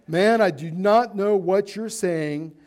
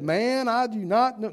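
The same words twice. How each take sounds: First: Slow, louder "Man, I do not know"; weight on "not", raised voice, measured pace; firm, deliberate denial stressing "not"; emphatic denial. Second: A hint of a higher-pitched southern accent; playful touch of southern accent. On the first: Acted. Restarts the denial after apologising. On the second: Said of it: "Kind of a southern accent".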